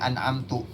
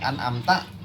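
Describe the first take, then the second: First: The final syllable ends with a 'u' vowel. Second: The final syllable ends with an 'a' vowel. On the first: The speaker did it. The speaker calls it wrong. "taknya di domah merusak mak" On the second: The one addressed did it. The speaker calls it right. "Kalau an amta kan tak aja artinya engkau"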